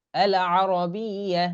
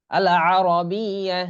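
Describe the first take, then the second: First: আল আরবিয়া drawn out, throaty; slow throaty Arabic recitation; slow Arabic demo. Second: আল আরবিয়া drawn out, louder; careful Arabic letter name; slow Arabic demo. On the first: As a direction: repeat আল আরবিয়া slowly. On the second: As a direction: stretch আল আরবিয়া slowly. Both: Shown as a demonstration. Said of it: "এরকম".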